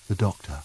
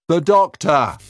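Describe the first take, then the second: First: Quiet. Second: High, loud call into the dark; shouting. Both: Acted.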